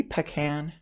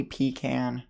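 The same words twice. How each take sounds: First: "pecan" as puh-KAN; alternative pronunciation. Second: "pecan" as PEE-kan; alternative pronunciation. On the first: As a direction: say "pecan" with a weak first syllable. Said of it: "I would say maybe". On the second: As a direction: say "pecan" with a long EE. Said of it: "Probably pecan". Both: Shown as a demonstration.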